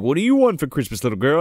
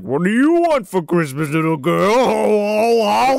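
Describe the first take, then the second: First: Said in the usual way. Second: A hint of a whimpering, strained Santa; lightly voiced weepy Santa echoing the line; creepy Santa echo. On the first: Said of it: "Sam's feeding him lines". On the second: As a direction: repeat the line with a crying quaver. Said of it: "And he's like".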